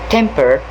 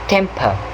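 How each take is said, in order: First: The final R sound is clearly pronounced. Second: The final R is dropped, ending in schwa. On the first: "American English will pronounce the R sound" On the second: "The final R is no longer pronounced"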